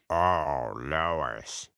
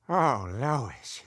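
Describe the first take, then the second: First: The voice is pitched deepest of all. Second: The voice is at a normal pitch. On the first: The speaker calls it right. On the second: The speaker calls it wrong.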